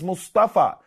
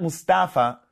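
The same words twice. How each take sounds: First: Mustafa with an Arabic emphatic, rounded middle vowel; Arabic pronunciation. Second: Mustafa with an American open "a" in the middle; American-style Mustafa, without the Arabic emphatic; anglicized pronunciation. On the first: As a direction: say Mustafa the Arabic way, not anglicized. We anglicize them. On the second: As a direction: say Mustafa anglicized, "mus-TAFF-a". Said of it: "we take these names and we anglicize them". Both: Shown as a demonstration.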